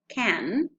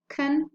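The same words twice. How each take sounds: First: It is said in its full strong form. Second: It is said in a reduced weak form. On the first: "Strong forms of can" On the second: "The weak forms are two"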